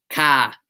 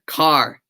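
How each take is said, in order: First: Boston accent. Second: Said in the usual way. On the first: Shown as a demonstration. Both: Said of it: "say, say car".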